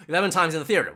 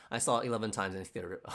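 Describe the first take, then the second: First: Louder, higher, quick astonishment; amazed repeat. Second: Said in the usual way. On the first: Real, not acted. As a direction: blurt it back with a laugh, impressed. Astonished repeat of what he just read.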